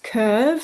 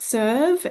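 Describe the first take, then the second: First: The word begins with a hard k sound. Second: The word begins with an s sound. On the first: The speaker calls it right. "it's pronounced curve" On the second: The speaker calls it wrong. "not serve"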